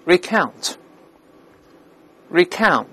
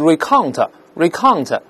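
First: "recount" as ri-KAOWNT, wide ow closing into n; corrected ow sound. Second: "recount" misread as ree-KAHNG-tuh, back vowel; wrong Chinese-style vowel. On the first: Teacher giving the corrected word, "recount" with wide ow and nasal n. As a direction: say "recount" carefully with a meow-like ow, falling. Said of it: "再加这个鼻音". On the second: Teacher showing the common mistake, "recount" with Chinese ao. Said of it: "不是这个声音". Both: Shown as a demonstration.

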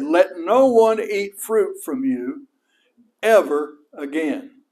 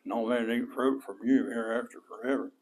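First: Slow, loud pronouncement; loud curse. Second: Low, soft mumble under the breath; mumbled. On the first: Retold or imitated. Jesus cursing the fig tree so the disciples hear, slow and loud. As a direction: declare the curse slowly for all to hear. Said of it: "he said it loud enough that his disciples heard it". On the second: Shown as a demonstration. How not to curse the tree, mumbled low and soft. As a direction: mumble it so nobody hears. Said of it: "go up there and mumble something".

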